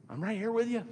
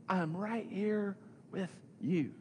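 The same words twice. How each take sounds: First: Higher, normal-paced reassurance; bright-pitched reassurance. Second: Drawn-out, higher-pitched reassurance; slow, deliberate reassurance. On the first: Preacher voices Jesus to the discouraged, higher reassurance. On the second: Preacher repeats Jesus' promise to the discouraged, slow and deliberate. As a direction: spell it out slowly, with pauses between phrases. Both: Retold or imitated.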